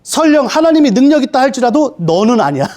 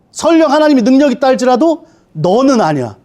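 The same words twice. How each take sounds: First: Said in the usual way. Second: Satan mocking. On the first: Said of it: "두 번째". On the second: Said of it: "사단이 이렇게 되는 거예요".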